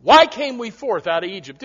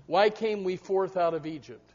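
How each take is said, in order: First: Loud challenging question. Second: Soft musing question. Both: Shown as a demonstration.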